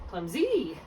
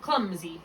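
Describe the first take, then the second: First: Clumsy said as clum-ZEE, pitch leaping on the end; stress on second syllable. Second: Clumsy said as CLUM-zee; stress on first syllable. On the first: Tutor showing the wrong accent, clumsy stressed on ZEE. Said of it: "rather than". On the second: Tutor showing where we put our accent, Clumsy stressed on CLUM. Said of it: "So we put our accent". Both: Shown as a demonstration.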